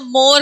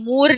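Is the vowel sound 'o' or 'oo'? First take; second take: o; oo. First: The vowel is a mid 'o' sound. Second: The vowel is a high 'oo' sound. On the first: The speaker calls it right. "जबकि यहाँ मोर कहती हूँ" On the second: The speaker calls it wrong. "मूर नहीं कहती"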